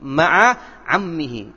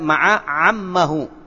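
First: The last word ends with an -ihi sound. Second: The last word ends with an -ahu sound. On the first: The speaker calls it right. "harokati dengan kasrah berikutnya" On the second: The speaker calls it wrong. "Bukan ma'a ammahu"

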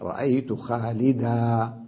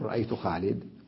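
First: The name ends with a long a vowel. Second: The name ends on a bare d sound. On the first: "أبقي حرف المد" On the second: "يحذفون هذا المد ويقفون عليها أيضا بالدال الساكنة"

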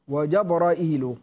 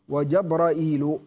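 First: It has a glottal stop before the -il ending. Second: The same.

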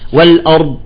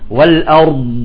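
First: The word ends with a released t-like sound. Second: The word ends with the tongue fully closed. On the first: The speaker calls it wrong. "بالأخير بيطلع لها تاء أو طاء" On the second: The speaker calls it right. "فيجب أن ينحبس المخرج انحباسا"

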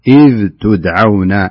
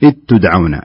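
First: The dh sound is pronounced clearly before the t. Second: The dh sound merges into the following t. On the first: The speaker calls it right. "فالصحيح أن يقرأها ظاهرة" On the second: The speaker calls it wrong. "بالخطأ الذي يقع فيه بعض الناس"

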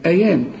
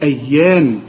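First: The y sound is short and single. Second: The y sound is doubled and held longer. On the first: "لو مفتوحة هتقولي أيام" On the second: "لأن الحرف مشدد أيام"

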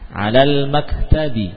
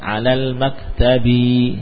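First: The vowel after the b is short. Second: The vowel after the b is long. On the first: The speaker calls it right. "Jangan kita panjangkan baknya" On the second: The speaker calls it wrong.

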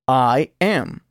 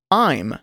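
First: Both words are said fully and separately. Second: The words merge into one short syllable. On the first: "Primero oirá el verbo sin contracción" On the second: "luego contraído con el pronombre personal"

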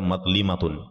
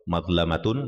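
First: The third syllable has an i vowel. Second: The third syllable has an a vowel. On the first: This is a less common alternative reading. "bisa juga dibaca" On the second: This is the well-known reading. "itu yang masyhur"

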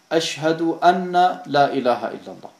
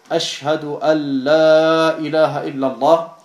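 First: An extra vowel is heard after the n. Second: No vowel is heard after the n. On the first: The speaker calls it wrong. "sagen sie Ashhadu anna la ilaha illallah. Und das ist falsch" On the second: The speaker calls it right. "anstatt Ashhadu an la ilaha illallah"

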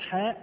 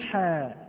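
First: It ends with an added glottal stop. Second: It ends in a plain vowel, no glottal stop. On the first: The speaker calls it wrong. "لا نقول حاء ميم" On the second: The speaker calls it right. "فنقول حا"

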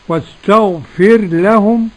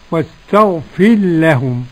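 First: The r is pronounced clearly before the l. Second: The r is merged into the following l. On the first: "بالإظهار والإدغام" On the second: "بالإظهار والإدغام"

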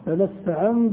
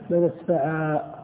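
First: The word ends with an n sound, running on. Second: The word ends with a long a, then stops. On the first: The speaker continues without stopping. "إذا وصلت تنطق بالنون" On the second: The speaker pauses at this word. "وإذا وقفت تقف بالألف"

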